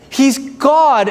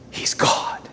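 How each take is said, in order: First: He's God, spoken out with a firm falling close; firm declaration. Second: He's God whispered in hushed awe. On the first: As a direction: state He's God plainly and firmly. Pastor stresses God's greatness. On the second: Preacher whispers the same claim. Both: Real, not acted.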